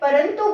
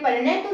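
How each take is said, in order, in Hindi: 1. 't' से पहले की नासिका ध्वनि 'n' ध्वनि है। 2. 't' से पहले की नासिका ध्वनि 'n' ध्वनि नहीं है। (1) "परंतु बोलते हैं" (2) "परंतु नहीं बोलते"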